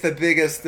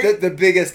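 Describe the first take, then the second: First: Said in the usual way. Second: Much higher and louder, half-laughing; hammed-up feminine fury; mock fury. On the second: Shown as a demonstration. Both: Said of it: "Can you demonstrate your feminine fury?".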